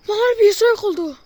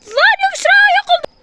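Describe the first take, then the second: First: Said in the usual way. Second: High shriek of fear; panicked scream. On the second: Real, not acted. Panic, sister vanished.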